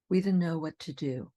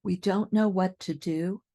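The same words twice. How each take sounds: First: We don't know what to do with don't know as dunno; reduced dunno. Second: We don't know what to do said carefully; full don't know. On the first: Teacher's relaxed sentence. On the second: Teacher's careful sentence. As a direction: keep don't know clear. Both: Shown as a demonstration. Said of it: "Here are a few more".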